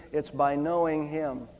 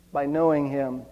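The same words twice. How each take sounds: First: "knowing" leaned on, softer and slower; stress on knowing. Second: "knowing" lingered on, hushed and low; stress on knowing. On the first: Preacher repeating to the congregation, stress on "knowing". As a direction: press the word "knowing" gently. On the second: Preacher echoing his point, quiet stress on "knowing". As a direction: repeat "knowing" softly for weight. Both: Shown as a demonstration.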